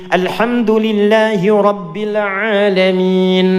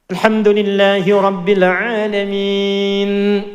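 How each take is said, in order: The two takes are said the same way.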